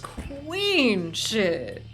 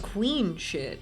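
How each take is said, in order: First: It is said with sassy drag queen flair. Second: It is said plainly and flatly.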